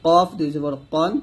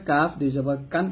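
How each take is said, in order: First: Thick q in কন; heavy qaf. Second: কাফ and কান with a light k and open a; plain forward k in কাফ; thin kaf. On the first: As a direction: round কফ out heavily. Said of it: "কফটা মোটা করতে হবে". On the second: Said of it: "পাতলা করে". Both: Shown as a demonstration.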